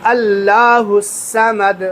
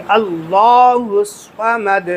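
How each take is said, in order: First: اللہ الصمد with a thin, light لام; wrong way shown. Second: Slow اللہ الصمد with a full, heavy لام and the صاد; correct heavy lam. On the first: Teacher imitates the common mispronunciation, light لام. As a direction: show the mistake, لام not made heavy. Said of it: "غلطی یہاں پہ کیا کرتے ہیں". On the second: Teacher gives the correct form after the mistake, slow. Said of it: "لام کو پر کرنا ہے". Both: Shown as a demonstration.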